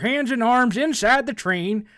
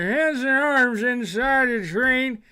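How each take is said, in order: First: A clear, sober old prospector voice. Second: A slurred, halting, drunk-sounding prospector voice.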